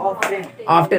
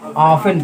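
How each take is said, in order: First: The t sound is pronounced in the middle. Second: The t sound is silent in the middle. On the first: The speaker calls it wrong. "इसको बहुत लोग क्या पढ़ते हैं जानते हो? ऑफ्टेन पढ़ेंगे।" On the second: The speaker calls it right. "टी silent होता है तो उसको ऑफन पढ़ते हैं"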